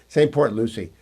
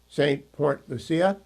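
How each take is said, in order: First: The last word is pronounced the English way. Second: The last word is pronounced the Spanish way. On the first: The speaker calls it right. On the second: The speaker calls it wrong.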